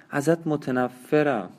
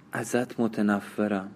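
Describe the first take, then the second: First: Said in the usual way. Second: Slow, softer murmured ازت متنفرم; under her breath. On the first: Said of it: "سرش را تکان داد و گفت". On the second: A narrator's reading. Exhausted dying woman to her lover, murmured under her breath. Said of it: "زیر لب گفت".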